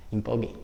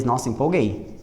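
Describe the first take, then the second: First: Empolguei dito baixinho entre risos, rindo; rindo de si mesma. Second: Said in the usual way. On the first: Real, not acted. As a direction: ria baixinho do próprio exagero ao dizer empolguei. (rindo baixinho ao dizer empolguei)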